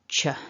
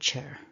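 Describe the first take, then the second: First: The syllable ends without an r sound. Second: The syllable ends with a linking r sound. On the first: No vowel follows the word. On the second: A vowel follows the word.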